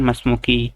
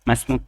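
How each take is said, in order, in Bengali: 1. শেষ স্বরধ্বনিটি পুরোপুরি উচ্চারিত হয়। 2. শেষ স্বরধ্বনিটি কাটা হয়, শুধু আভাস থাকে। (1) "এভাবে বললে সমস্যা নাই, বাকি সাকিন করাটা উত্তম" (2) "যেরকম মাসমুক মাসমুকি একটু কি এর ভাব আসবে"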